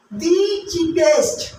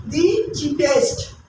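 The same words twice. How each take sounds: First: The cheapest said slowly with weight on the; slow and clear. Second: The cheapest said slowly, falling at the end; the cheapest, slow and final; slow and clear. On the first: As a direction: lean into the cheapest, unhurried. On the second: Teacher modelling the superlative for students, slowly. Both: Shown as a demonstration. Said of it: "in comparative degree".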